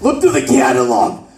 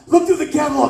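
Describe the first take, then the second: First: Said in the usual way. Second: Smoker aunt. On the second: Retold or imitated.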